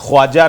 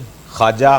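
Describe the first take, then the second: First: A w sound follows the kh. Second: No w sound follows the kh. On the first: The speaker calls it wrong. "ख्वाजा नहीं" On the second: The speaker calls it right. "उसमें आपने वाव silent कर देना है"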